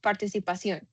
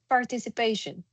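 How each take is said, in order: First: The word is pronounced with Spanish sounds. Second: The word is pronounced with English sounds. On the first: The speaker calls it wrong. "they pronounce it like participación" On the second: The speaker calls it right. "I give them this word"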